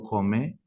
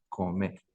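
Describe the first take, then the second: First: "come" with a plain C, an ordinary k; first contrasted consonant. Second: Softer "come" with a glottal Q for the c; second contrasted consonant. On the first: Teacher checks the difference is audible, plain-C "come". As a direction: model "come" with the k kept forward. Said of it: "No sé si se escucha". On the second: Teacher checks the difference is audible, soft throaty "come". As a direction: say "come" softly, the k back in the throat. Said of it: "la diferencia en la Q". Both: Shown as a demonstration.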